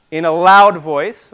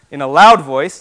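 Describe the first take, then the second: First: "loud" leaned on, louder; preacher hammering "loud" home; stress on loud. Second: "loud" hit hard and louder; preacher pressing "loud" again, louder; stress on loud. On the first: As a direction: punch the word "loud" with a raised voice. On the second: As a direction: lean into "loud", voice raised. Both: Shown as a demonstration. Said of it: "It's loud, loud, more loud".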